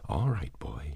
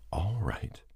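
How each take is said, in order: First: Said in the usual way. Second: Soft whispered "All right." to calm the dog; hushed, reassuring whisper of "All right."; soothing whisper. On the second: A narrator's reading. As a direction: breathe "All right." gently to the frightened dog. Calming a terrified dog.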